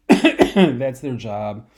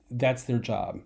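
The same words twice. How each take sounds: First: Each word spaced out and weighed; slow emphatic repeat. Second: Said in the usual way. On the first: Shown as a demonstration. Teacher hammering the point to students, slow and emphatic. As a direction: drive "That's their job" home, slow and louder.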